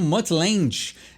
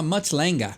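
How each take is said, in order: First: The name is said the commonly assumed way. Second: The name is said the South African way. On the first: The speaker calls it wrong. "eu vejo muita gente falar como Mutt Lange" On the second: The speaker calls it right. "por ele ser da África do Sul, a pronúncia é um pouquinho diferente"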